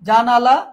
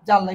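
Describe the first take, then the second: First: A vowel is said between the n and l. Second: The n and l join with no vowel. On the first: "এখানে আ ছিল" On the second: "আটা লুপে হসন্ত হয়েছে।"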